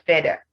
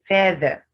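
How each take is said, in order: First: The middle sound is not a voiced th. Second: The middle sound is a voiced th. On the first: The speaker calls it wrong. "not feather" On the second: The speaker calls it right. "that's what you have in feather"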